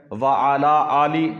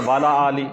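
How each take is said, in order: First: Drawn-out "وَعَلَىٰ آلِ", louder and slow; correct recitation. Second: Hurried "وَعَلَىٰ آلِ", run together as "wala aali"; common mistaken recitation. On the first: Teacher shows worshippers the durood phrase, correctly drawn out. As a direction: recite "وَعَلَىٰ آلِ" slowly with the long vowels held. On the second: Teacher imitates how most people misread durood, hurried mispronunciation. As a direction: say "وَعَلَىٰ آلِ" quickly, swallowing the opening "a" of ala. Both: Shown as a demonstration. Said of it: "اکثر لوگ پڑھتے ہیں".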